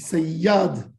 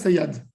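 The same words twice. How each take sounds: First: The middle consonant is held long and doubled. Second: The middle consonant is short and single. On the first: The speaker calls it right. "tu dis sayyad" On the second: The speaker calls it wrong. "Tu dis pas sayyad"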